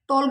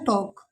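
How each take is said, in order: First: The L sound is clearly pronounced. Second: The L sound is left out. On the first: The speaker calls it wrong. "बच्चों को टॉल्क बोलते हैं" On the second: The speaker calls it right. "ये होता है टॉक"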